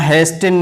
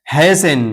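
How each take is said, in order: First: Hasten said as "hays-ten"; wrongly sounded T. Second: Hasten said as "hay-sen"; silent T. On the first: Teacher shows learners what to avoid, hasten with T sounded. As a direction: pronounce the T in hasten. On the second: Teacher repeats the word for learners, hasten with silent T. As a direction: drop the T from hasten. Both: Shown as a demonstration. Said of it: "यहाँ hasten नहीं पढ़ेंगे".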